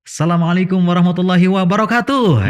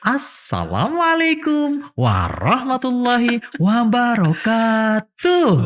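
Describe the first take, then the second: First: It is said in a plain, formal adult manner. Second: It is said in a lively, child-friendly manner. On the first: The greeting is addressed to adults. "kalau mengucapkan salam kepada orang dewasa" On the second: The greeting is addressed to children. "ke anak-anak itu begini"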